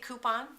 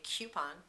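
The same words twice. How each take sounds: First: The first syllable sounds like 'koo'. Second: The first syllable sounds like the letter Q. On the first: This is the speaker's own way of saying it. "I say coupon" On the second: This is how other people may say it. "You may say coupon"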